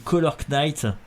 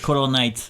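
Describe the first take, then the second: First: The K at the start of Knight is pronounced. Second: The K at the start of Knight is silent. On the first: The speaker calls it wrong. "normalement, faut pas prononcer le K normalement" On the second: The speaker calls it right. "C'est Color Knight en fait"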